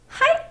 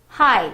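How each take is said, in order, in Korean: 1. 간드러지고 높은 위치에서 나는 소리입니다. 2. 평범하고 낮은 위치에서 나는 소리입니다. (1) "간드러지게 일본 여자가 하이 하는 느낌으로" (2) "하이 이러진 않죠?"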